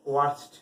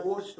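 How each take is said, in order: First: ওয়ার্স্ট opening with a clear "wa" sound; corrected pronunciation. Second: ওর্স্ট with a rounded "o" vowel, like "orst"; common mispronunciation. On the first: Teacher correcting a common mistake, ওয়ার্স্ট modelled with "wa". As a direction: say ওয়ার্স্ট as "warst", not "orst". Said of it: "সঠিক উচ্চারণ হচ্ছে". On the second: Teacher quoting a common mistake, ওর্স্ট mispronounced with an "o". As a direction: say ওর্স্ট with "o" in place of "wa". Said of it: "অনেকে ভুল করে ওর্স বলে". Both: Shown as a demonstration.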